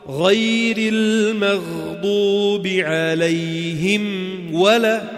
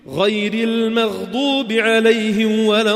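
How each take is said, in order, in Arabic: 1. النطق متأنٍّ وصوت الميم واضح. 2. النطق سريع وصوت الميم يختفي. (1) "فشو بنقرأ؟" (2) "حأقرأها بسرعة أنا، شوف كيف تختفي"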